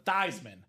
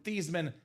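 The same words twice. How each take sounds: First: The name rhymes with Heisman. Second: The name does not rhyme with Heisman. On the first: This is the new pronunciation chosen for a campaign slogan. "to Theismann" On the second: This is the name's original pronunciation. "changing the pronunciation of your last name from Theismann"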